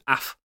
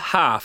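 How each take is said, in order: First: The h is dropped, Brummie style. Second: The word starts with an h sound.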